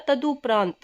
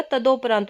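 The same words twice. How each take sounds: First: तदुपरांत said "taduparaant"; correct "u" vowel. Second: तदोपरांत said "tadoparaant"; wrong "o" vowel. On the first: Teacher giving students the correct word, "du" in तदुपरांत. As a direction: use short u in तदुपरांत: ta-du. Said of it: "शब्द होता है हमारा". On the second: Teacher citing the written error, "do" in तदोपरांत. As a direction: put a long o in तदोपरांत: ta-do. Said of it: "हमें शब्द लिखा मिलेगा". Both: Shown as a demonstration.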